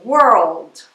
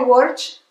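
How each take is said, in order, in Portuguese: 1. Tanto o R quanto o L são pronunciados. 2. O L é omitido; só o R é pronunciado. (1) "esse R e esse L é falado" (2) "falar errado"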